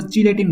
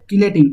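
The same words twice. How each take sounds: First: Chelating mispronounced with a ch, "chee-lay-ting"; wrong pronunciation. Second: Chelating with a hard k, "kee-lay-ting"; correct pronunciation. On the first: Teacher warning students off a misreading, wrong ch sound. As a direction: say chelating starting like "cheese". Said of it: "इसको chelating मत बोलो". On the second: Teacher showing students how chelating is said, correct k sound. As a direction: say chelating starting like "key". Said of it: "इसका pronunciation ऐसे होता है". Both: Shown as a demonstration.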